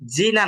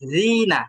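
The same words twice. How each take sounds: First: The first consonant sounds like a 'j'. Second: The first consonant is a thin tongue-tip 'dh'. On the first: The speaker calls it wrong. "না" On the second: The speaker calls it right. "একদম আগা থেকে চিকন"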